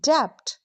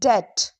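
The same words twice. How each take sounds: First: The B is sounded. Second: The B is silent. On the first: The speaker calls it wrong. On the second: The speaker calls it right.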